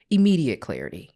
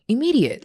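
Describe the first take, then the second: First: Said in the usual way. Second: Immediate thrown up high and loud with a fall; emphatic Immediate; stress on Immediate. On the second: Real, not acted. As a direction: punch Immediate hard.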